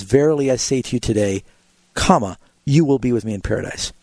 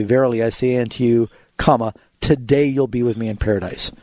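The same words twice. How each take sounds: First: 「today」の後で区切る; today closes the first phrase, then a break; pause after today. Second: 「today」の前で区切る; pause before today. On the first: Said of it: "really in the Greek it says". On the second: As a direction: break after you, then today. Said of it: "in the King James it'll say". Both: Shown as a demonstration.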